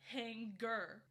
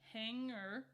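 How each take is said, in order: First: The ng is followed by a hard g. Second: The ng is said with no hard g. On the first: The speaker calls it wrong. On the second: The speaker calls it right.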